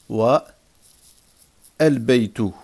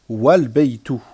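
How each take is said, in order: First: A pause after wa; the initial a is pronounced. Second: No pause; wa runs straight into lbaytu. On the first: "si je marque un arrêt" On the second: "si je fais la liaison"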